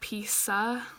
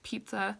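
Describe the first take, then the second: First: The middle consonant has an s sound. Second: The middle consonant has a z sound. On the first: The speaker calls it wrong. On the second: The speaker calls it right.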